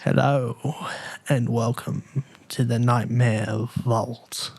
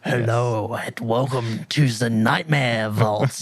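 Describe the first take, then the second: First: It is said in a subtle voice. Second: It is said in an edgy voice.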